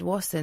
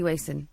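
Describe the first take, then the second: First: The first vowel is short, as in 'mass'. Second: The first vowel is long, as in 'Mason'. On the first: The speaker calls it wrong. "I've had Wasson, but then that's double S" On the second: The speaker calls it right. "like Mason, but with a W"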